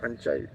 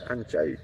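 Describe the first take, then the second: First: The second syllable ends in an 'eye' sound. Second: The same.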